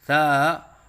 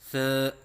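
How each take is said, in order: First: The syllable is said with a wavering quality. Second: The syllable is said with the mouth closed. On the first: "लहराव के साथ पढ़ना ये गलत है" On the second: "मुंह बंद करके पढ़ना ये गलत है"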